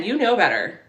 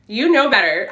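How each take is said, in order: First: Said in the usual way. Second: Teasing scold. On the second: Acted.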